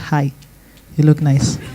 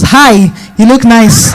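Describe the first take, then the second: First: It is said quietly. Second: It is said loudly.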